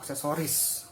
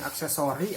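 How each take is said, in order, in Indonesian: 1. Kata ini berakhir dengan bunyi s. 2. Kata ini berakhir dengan vokal. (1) "Pakai S" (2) "yang baku tidak pakai S"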